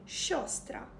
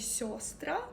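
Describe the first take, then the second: First: The word begins with a soft hushing sh-like sound. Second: The word begins with a plain soft s. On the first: The speaker calls it right. "правильно сказати «щостра»" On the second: The speaker calls it wrong. "можуть сказати «сьостра»"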